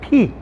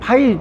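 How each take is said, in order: First: The letter is said with an 'ee' vowel. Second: The letter is said with an 'ai' vowel. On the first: The speaker calls it right. "이건 P" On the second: The speaker calls it wrong. "파이라고 하면 파이 먹으려고 하면 안 돼"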